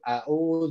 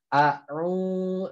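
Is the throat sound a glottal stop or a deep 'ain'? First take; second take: glottal stop; deep 'ain'. First: The throat sound is a plain glottal stop. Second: The throat sound is a deep mid-throat 'ain'. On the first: The speaker calls it wrong. "Au salah" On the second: The speaker calls it right. "jadi harus bedakan"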